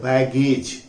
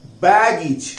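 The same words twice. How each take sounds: First: बैगेज read as baged, spelling-style ending; the usual Indian reading of बैगेज; common Hindi misreading. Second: Careful model of बैगेज as English baggage; correct English pronunciation. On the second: Teacher modelling बैगेज for students, said carefully. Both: Shown as a demonstration. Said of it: "बैगेज नहीं होता".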